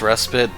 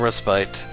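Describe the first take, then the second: First: The second syllable does not sound like 'spite'. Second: The second syllable sounds like 'spite'. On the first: "some people pronounce that word as respite" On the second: "that's why I go for spite"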